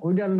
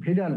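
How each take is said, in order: First: The word begins with a W sound. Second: The word begins with a V sound. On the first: The speaker calls it wrong. "উইডাল বলা যাবে না" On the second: The speaker calls it right. "এখানে হবে ভিডাল test"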